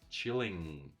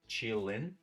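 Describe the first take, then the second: First: The word ends in a full ng sound. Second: The word ends in a short i and n. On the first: "pronounce it fully" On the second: "These are in"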